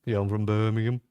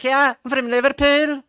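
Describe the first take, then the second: First: Put-on deep Brummie accent. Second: Put-on much higher, louder Liverpool accent; higher Scouse accent. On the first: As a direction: lower Birmingham accent, rising at the end. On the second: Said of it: "Liverpool is always a little higher".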